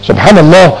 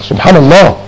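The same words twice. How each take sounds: The two takes are said the same way.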